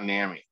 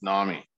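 First: "nami" with the short a of "cat"; mispronounced nami. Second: "nami" with an open "ah" first vowel; corrected nami. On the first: Host showing how they'd been saying it, "nami" as NAM-ee. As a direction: say "nami" as NAM-ee, rhyming with whammy. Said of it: "I've been saying it wrong". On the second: Host correcting their own mistake for listeners, "nami" as NAH-mee. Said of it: "It's not nami". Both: Shown as a demonstration.

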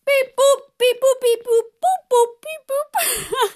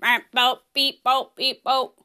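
First: High-pitched robot beeping and booping; playful robot beeps. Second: Low, even robot beeps and boops; robot beeping. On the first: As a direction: beep like a toy robot on the breath out. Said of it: "go beep, boop, beep every time we breathe out". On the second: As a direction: beep it out like a little machine. Acting as a robot, show opener. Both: Pretend.

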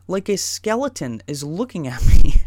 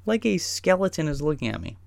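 First: Loud burst breaking into the last word; interrupted by a bodily noise. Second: Said in the usual way. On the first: Real, not acted. Telling his trip story, interrupted by a loud bodily noise. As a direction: end the line in a sudden loud body noise. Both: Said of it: "Excuse me".

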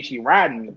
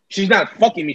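First: Riding stressed, soft low fall. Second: Not hit firmly, falling end; stress on not. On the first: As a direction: lean on riding, softly. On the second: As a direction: lean on not. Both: Shown as a demonstration. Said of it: "She's riding me though".

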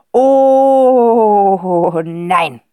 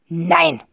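First: A hint of a dismayed father, first word pushed loud; the "Oh" loud, then "nein." dropping away. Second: Said in the usual way. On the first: A narrator's reading. Father dreading the countess's call, dismayed. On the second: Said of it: "sagt er nämlich".

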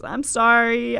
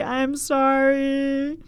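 First: Said in the usual way. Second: Slow sincere sorry. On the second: Real, not acted. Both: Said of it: "I mean it when I say".

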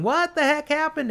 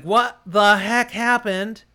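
First: Yelling. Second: Dazed confusion. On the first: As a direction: yell it half-deaf after the blast. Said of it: "he's yelling". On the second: Dazed after blast. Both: Acted.

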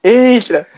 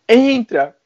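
First: Put-on "Entra." called high and loud in a Paulista accent; São Paulo accent, loud call. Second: Put-on "Entra." called high in a Paulista accent; Paulista accent again. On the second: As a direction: repeat "Entra." the São Paulo way. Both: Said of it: "Paulista, né?".

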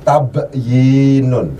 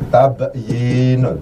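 First: Tabyinun drawn out slowly, each syllable clear; slow demo reading. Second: Tabyinun read slowly and clearly again; slow demo reading. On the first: Teacher slowly models tabyinun for students. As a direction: spell out tabyinun slowly for the class. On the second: Teacher repeats tabyinun slowly for students. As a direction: model tabyinun syllable by syllable. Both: Shown as a demonstration. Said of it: "bacaannya adalah".

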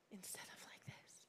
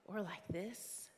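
First: Hushed whispered contrast; whispered demo of the better way. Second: Said in the usual way. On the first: Shown as a demonstration. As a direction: drop to a breathy whisper for the right way. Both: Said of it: "so often the gospel's like this".

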